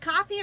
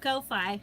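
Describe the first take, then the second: First: It is said just like the word coffee. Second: It is said to rhyme with lo-fi. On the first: "some pronounce it as coffee" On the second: "I've been calling it Ko-Fi, believe it or not. Like lo-fi"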